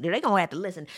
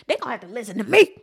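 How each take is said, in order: First: Said in the usual way. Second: Louder, fast insistent declaration; emphatic declaration. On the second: Real, not acted. Insisting the senators listen to her, louder and faster. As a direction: drive it home, louder.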